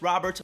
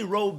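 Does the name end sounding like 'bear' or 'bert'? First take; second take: bert; bear. First: It ends with a 'bert' sound, English style. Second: It ends with a 'bear' sound, Spanish style.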